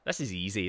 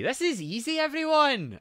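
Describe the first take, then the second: First: Said in the usual way. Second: Higher, louder cocky announcement; excited boast. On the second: Real, not acted. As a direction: brag it to the chat. Repeats it to chat, boasting.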